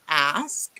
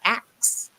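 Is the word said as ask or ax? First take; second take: ask; ax. First: The word ends with the sounds s then k. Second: The word ends with the sounds k then s. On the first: The speaker calls it right. "you need to say ask" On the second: The speaker calls it wrong. "and not ax"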